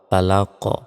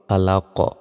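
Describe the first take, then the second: First: The word ends on the q sound. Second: The word ends on the q sound.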